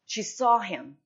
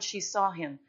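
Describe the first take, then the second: First: She saw him punched out loud; first take of she saw him, called out loud; emphatic, louder take. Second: Said in the usual way. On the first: Acted. Repeated line, first take punched.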